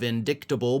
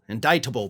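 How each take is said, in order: First: The c in the middle is sounded as k. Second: The c in the middle is silent. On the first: The speaker calls it wrong. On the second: The speaker calls it right.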